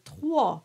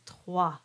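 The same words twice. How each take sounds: First: Trois with a very dark "aw" in a regional French accent. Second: Sung, trois as "twah", slightly dark A; sung-French pronunciation. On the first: Teacher imitating regional French speakers, trois in their accent. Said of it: "there is the regional accent". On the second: Sung, teacher giving singers the standard, trois as "twah". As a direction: say trois with the standard singing vowel. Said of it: "but in singing, it is trois". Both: Shown as a demonstration.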